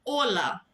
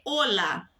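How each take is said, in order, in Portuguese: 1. A tônica está na primeira sílaba. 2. A tônica está na primeira sílaba.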